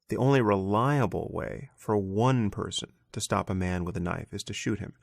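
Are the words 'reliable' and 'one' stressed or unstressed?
stressed. Reliable and one are strongly stressed.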